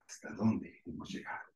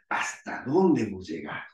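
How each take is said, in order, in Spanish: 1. Suena negativa y dudosa. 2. Suena a una pregunta curiosa y sencilla.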